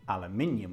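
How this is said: It is said with a British pronunciation. "what's the British pronunciation of aluminum? Aluminium, of course"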